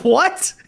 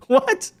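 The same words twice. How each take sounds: First: Rising, disbelieving question; a first stunned what; incredulous what. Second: High, squeaky, rising what; squeaky disbelief. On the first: Commentator reacting to critics, rising incredulous what. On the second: Commentator reacting to critics, high squeaky disbelief. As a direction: jump way up in disbelief. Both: Real, not acted.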